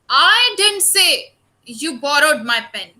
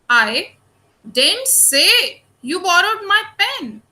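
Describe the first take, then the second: First: The word 'I' carries strong stress. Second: The word 'I' carries no special stress.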